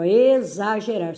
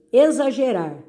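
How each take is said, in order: First: "exagerar" with the first syllables stretched apart; separando sílabas. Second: Said in the usual way. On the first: Shown as a demonstration. ("exagerar" com as sílabas destacadas) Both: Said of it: "Separar a sílaba aí".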